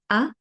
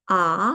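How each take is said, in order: First: The vowel is short and clipped. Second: The vowel is long and drawn out. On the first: "the short version" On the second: "the long version"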